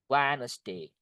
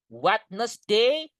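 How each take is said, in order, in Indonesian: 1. Bunyi d di tengah diam. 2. Bunyi d di tengah dibaca. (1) "Jadi D-nya itu nggak dibaca" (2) "Wednesday itu salah"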